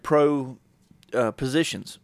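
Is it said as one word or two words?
two words. It is split into two separate words. Professional roles or positions. "A little difference in spacing"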